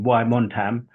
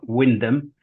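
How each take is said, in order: First: The name is said the long, American way. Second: The name is said the short, local way. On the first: The speaker calls it wrong. "I think that's how they pronounce it in America" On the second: The speaker calls it right. "I'm glad I said that right"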